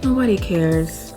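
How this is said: It is said in a gloomy, negative tone. No one cares about me, so I am worthless. The speaker calls it wrong. "I had a negative mindset, I will probably say"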